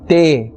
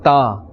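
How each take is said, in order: First: The letter name ends in an 'eh' vowel. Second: The letter name ends in an 'ah' vowel. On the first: The speaker calls it wrong. "te instead of ta" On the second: The speaker calls it right. "instead of ta"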